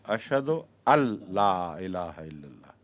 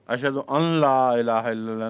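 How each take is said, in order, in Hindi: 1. n पूरी तरह मिलकर दोहरे l जैसा हो जाता है। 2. n, l से पहले साफ़ बोला जाता है।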